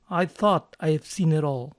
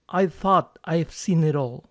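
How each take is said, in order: The two takes are said the same way.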